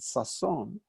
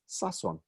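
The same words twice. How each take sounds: First: The stress is on the last syllable. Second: The stress is on the first syllable. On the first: It is said like the common noun meaning joy. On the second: It is said as a personal name. "where we make that distinction between names, proper nouns, and common nouns, where they're the same word, by changing the stress"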